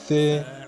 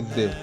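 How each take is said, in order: First: It does not sound like English 'the'. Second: It sounds like the English word 'the'. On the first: The speaker calls it right. "This is not English" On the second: The speaker calls it wrong. "Don't say the"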